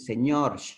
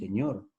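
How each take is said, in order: First: The final r is a hissing sound. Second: The final r is a plain tap. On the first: "pero en la sierra dicen señor" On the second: "en la costa decimos señor"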